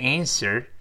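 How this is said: It ends with a curled r sound. "美音中r 变成a， er 加勾舌头"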